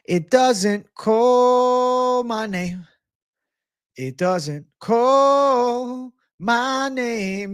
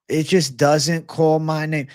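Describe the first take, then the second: First: High, slow, drawn-out Jamaican accent. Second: Said in the usual way. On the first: Shown as a demonstration. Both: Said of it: "Gotta do the Jamaican accent".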